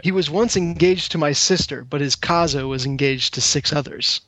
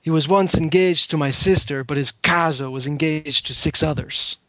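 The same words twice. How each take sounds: First: Put-on a weak, hammy stab at an Italian accent; lightly put-on Italian accent, barely there. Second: Put-on Italian accent. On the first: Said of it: "this is aiming for an Italian accent". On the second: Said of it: "I'll see if I can do the voice for it as well".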